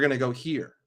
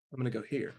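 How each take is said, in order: First: Said in the usual way. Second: Much softer, lower secret aside; sly aside. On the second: Acted. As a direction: drop it right down like a secret plan. The secret real move, after feint.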